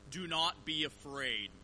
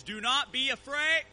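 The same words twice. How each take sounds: First: Solemn recorded voice. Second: Loud, high booming message; recorded voice at full volume; voice blaring from car speakers. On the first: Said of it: "what I said in the voice was". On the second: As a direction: blast it like maxed-out speakers. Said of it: "I hear my voice". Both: Retold or imitated.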